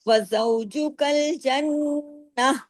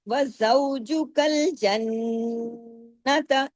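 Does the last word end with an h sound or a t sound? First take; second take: h sound; t sound. First: The last word ends with an 'h' sound. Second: The last word ends with a 't' sound. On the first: The reader stops on this word. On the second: The reading continues without stopping.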